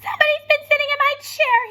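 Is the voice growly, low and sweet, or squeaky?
squeaky. It is said in a high, squeaky voice.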